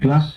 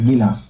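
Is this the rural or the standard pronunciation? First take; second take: standard; rural. First: The word is said in its standard form. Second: The word is said in a rural form. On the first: "যার সঠিক উচ্চারণ কি হয়" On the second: "গ্রামের দিকে উচ্চারণ করে"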